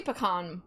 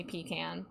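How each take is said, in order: First: PECAN said as "puh-kahn"; PECAN with an "ah" at the end; preferred pronunciation. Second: PECAN said as "pee-can"; long "pee", flat A in "can" for PECAN; PECAN with both syllables clear, PEE-can; alternative pronunciation. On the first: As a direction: stress the open second syllable, puh-KAHN, in PECAN. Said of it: "I say pecan more than". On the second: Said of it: "more than I say pecan". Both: Shown as a demonstration.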